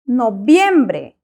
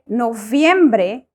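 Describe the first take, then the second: First: The first consonant is a b sound. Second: The first consonant is a v sound. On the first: The speaker calls it right. "the letter V in Spanish is pronounced the same as the letter B" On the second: The speaker calls it wrong. "So we do not say noviembre"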